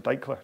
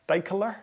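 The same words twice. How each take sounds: First: Deichler in two syllables, DEI-kler; E left silent. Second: Deichler with an extra vowel, DEI-kel-ler; E pronounced. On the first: Host checks viewer's surname, Deichler with the E dropped. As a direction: run the K straight into the L in Deichler. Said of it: "or is it". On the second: Host reads viewer's surname aloud, Deichler with the E sounded. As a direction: say Deichler in three syllables, voicing the middle E. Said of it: "Do you actually pronounce the E". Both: Shown as a demonstration.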